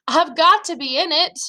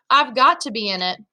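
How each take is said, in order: First: Higher, more insistent inner plea; urgent insistence. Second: Fearful thought held at usual pitch; understated fear. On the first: Boy dreads being made to stay home, urgent insistence. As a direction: press it urgently, pitched up. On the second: Boy dreads being left out of the fight, understated fear. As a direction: think it with a mild touch of dread. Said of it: "I thought in mortal fear". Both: A narrator's reading.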